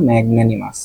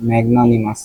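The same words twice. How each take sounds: First: ম্যাগনানিমাস with a fronted "nae"; corrected pronunciation. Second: ম্যাগনানিমাস with broad "naa"; rejected pronunciation. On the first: Teacher settling the pronunciation, ম্যাগনানিমাস with "nae" not "naa". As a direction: say ম্যাগনানিমাস as "mag-nae-ni-mas", softer. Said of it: "উচ্চারণটা হবে ম্যাগনানিমাস". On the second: Teacher dismissing one version, ম্যাগনানিমাস said as "mag-naa-ni-mas". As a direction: open the middle vowel of ম্যাগনানিমাস to "aa". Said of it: "ম্যাগনানিমাস না". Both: Shown as a demonstration.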